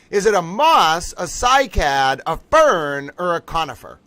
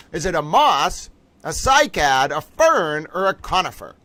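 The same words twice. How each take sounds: The two takes are said the same way.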